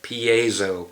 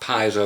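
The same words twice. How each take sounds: First: It is said as pee, then ay, then zo. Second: It is said without an 'ay' sound after 'pee'. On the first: The speaker calls it right. "P, like you get a P. A, like you're from Canada. Then Zo. That's how you pronounce it" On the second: The speaker calls it wrong. "It's not Piezo or anything"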